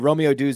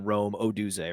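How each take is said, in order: First: The O joins the first name: Romeo Dunze. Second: The O joins the surname: Rome Odunze. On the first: The speaker calls it right. "Romeo Dunze is a better better name" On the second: The speaker calls it wrong. "than Rome Odunze"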